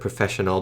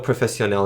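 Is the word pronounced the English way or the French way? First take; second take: English; French. First: The word is said with an ordinary English pronunciation. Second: The word is said with a French-style pronunciation. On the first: "instead of professional" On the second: "as someone in France might try and pronounce it"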